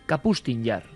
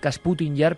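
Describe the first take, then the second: First: The s comes after the p: Ka-pus-tin. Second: The s comes before the p: Kas-pu-tin. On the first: The speaker calls it right. "pero es" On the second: The speaker calls it wrong. "Yo he dicho siempre"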